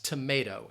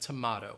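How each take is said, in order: First: It is said in an American accent. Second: It is said in a British accent. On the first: "American pronunciation, the way that we pronounce certain words" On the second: "instead of"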